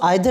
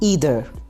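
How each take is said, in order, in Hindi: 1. शब्द 'eye' ध्वनि से शुरू होता है। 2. शब्द 'ee' ध्वनि से शुरू होता है। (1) "इसको आइदर नहीं बोलेंगे" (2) "बल्कि ईदर"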